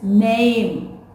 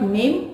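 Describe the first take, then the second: First: The vowel is drawn out and stretched. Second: The vowel is said short and clipped. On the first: The speaker calls it right. "A has to be little stretched" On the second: The speaker calls it wrong. "It is not name"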